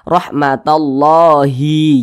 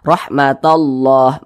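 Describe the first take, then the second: First: The word ends with an added i vowel. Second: The word ends on a silent final h. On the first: The speaker calls it wrong. "Jangan dibaca" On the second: The speaker calls it right. "ini kita baca rahmatallah"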